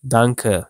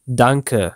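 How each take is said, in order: Both takes have the same delivery.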